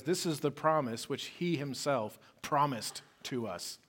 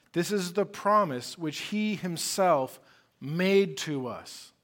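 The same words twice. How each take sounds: First: Said in the usual way. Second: Slow, every word leaned on, stress on "This is the promise which he himself made to us"; slow down and press each word of "which he himself made to us"; emphatic. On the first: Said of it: "but literally says". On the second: Shown as a demonstration. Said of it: "See that emphasis".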